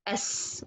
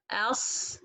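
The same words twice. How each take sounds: First: "as" with a thin es sound, tongue down; light Sin. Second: "as" with a dark, heavy s; heavy Sin mistake. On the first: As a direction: softly hiss a light s on "as". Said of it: "make it light, put your tongue from the middle down". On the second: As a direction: show "as" wrongly made with the tongue back up. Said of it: "they make it heavy". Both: Shown as a demonstration.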